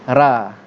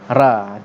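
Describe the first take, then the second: Both takes have the same delivery.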